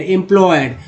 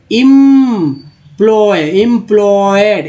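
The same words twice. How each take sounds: First: Said in the usual way. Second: "employed" slowly, with a long held "im"; drawn-out word building. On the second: Shown as a demonstration. Teacher assembling the word from em, slow drawn-out syllables. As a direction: stretch each part of "employed". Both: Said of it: "ई एम है तो".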